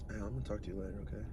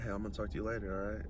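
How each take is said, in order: First: It is said in a put-on sexy voice. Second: It is said in his plain voice.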